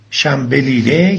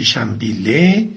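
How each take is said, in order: First: Said in the usual way. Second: "شنبیله" in the local shortened form, shambille; Eghlid dialect pronunciation. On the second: Shown as a demonstration. Presenter giving the local name of fenugreek, "شنبیله" pronounced the Eghlid way. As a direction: say "شنبیله" without the first l of the standard word.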